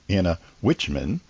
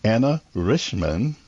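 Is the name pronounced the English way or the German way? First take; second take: English; German. First: The name is pronounced the English way. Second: The name is pronounced the German way. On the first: "she also goes by" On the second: "That's the proper pronunciation"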